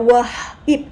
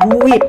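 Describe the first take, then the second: First: The word is broken into two separate parts. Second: The word is said as one smooth unit. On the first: The speaker calls it wrong. "Mereka nggak bisa baca wah, ip" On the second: The speaker calls it right. "jadinya whip"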